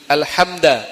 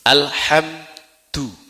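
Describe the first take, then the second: First: The dal is followed by an 'a' vowel. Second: The dal is followed by a 'u' vowel. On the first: The word is the object of a hidden verb. "dengan nasab karena ada fiil yang disembunyikan" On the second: The word is read as the subject of the sentence. "huruf dalnya dibaca uh, dhammah du"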